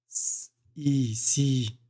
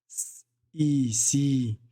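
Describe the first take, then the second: Both takes have the same delivery.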